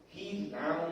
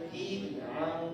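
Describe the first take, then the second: No difference in how they are said.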